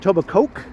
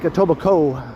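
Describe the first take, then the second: First: The ending sounds like the word Coke. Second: The ending does not sound like Coke. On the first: The speaker calls it wrong. "it's not pronounced Etobicoke" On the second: The speaker calls it right. "It's more like Etobicoke"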